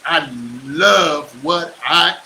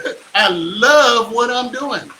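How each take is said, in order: First: "love" stretched out slowly and pressed; slow stress on love. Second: Louder, slow, laughing through "love"; retry it while laughing; laughing retake. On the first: Shown as a demonstration. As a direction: lean hard into "love", take it slowly. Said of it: "that was kinda weird on my face to do that". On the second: Real, not acted. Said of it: "that was kinda weird on my face".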